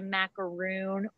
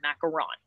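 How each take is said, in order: First: The last syllable has a long 'oo' vowel. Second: The last syllable rhymes with 'Ron'. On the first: The speaker calls it wrong. "because we live in the South, I get a lot of macaroon" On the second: The speaker calls it right. "Like you're saying Ron from Harry Potter at the end"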